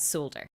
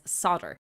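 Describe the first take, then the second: First: The L sound is clearly pronounced. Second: The L sound is left out. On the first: This is the Irish and UK pronunciation. "pronouncing it as solder" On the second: This is the American pronunciation. "the Americans pronounce it as solder"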